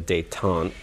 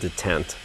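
First: It is said French-style, ending in a vowel. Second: It is said plainly, ending on a t sound. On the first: It names a completely different word. The speaker calls it wrong. "which is apparently the French pronunciation of a completely different word" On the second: It names the spring-loaded rod. The speaker calls it right. "It's actually a detent"

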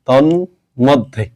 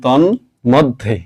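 No difference in how they are said.

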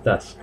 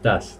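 Both takes have the same delivery.

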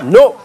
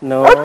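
First: It is said as a stern prohibition. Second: It is said softly, without a scolding tone.

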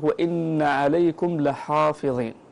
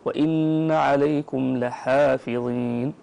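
First: The ha and following alif sound heavy, emphatic. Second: The ha and following alif sound light, thin. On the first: The speaker calls it wrong. "صارت الألف والحاء مفخمتين بسبب هذه الضاء" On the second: The speaker calls it right. "يعطي كل حرف حقه من التفخيم أو من الترقيق"

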